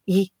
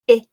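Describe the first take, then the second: First: The vowel is made with the tongue too high. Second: The vowel opens up toward a schwa sound. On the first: "If we put it too high" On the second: "if we put it too low, it starts to open up into something more like a schwa"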